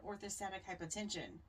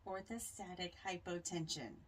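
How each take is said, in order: First: It is said at normal conversational speed. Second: It is said slowly and deliberately.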